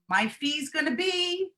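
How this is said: The pitch rises like a question. It sounds like asking rather than stating. The speaker calls it wrong. "we rise up with that tone of voice"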